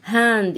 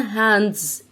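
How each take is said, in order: First: Hand, ending on d, no s; singular hand. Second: Hands, ending on a z buzz; plural hands. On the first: Teacher contrasting one hand with two. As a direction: hand with no final s sound. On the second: Teacher contrasting two hands with one. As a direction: hands with a clear final z. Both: Shown as a demonstration. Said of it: "إيد واحدة".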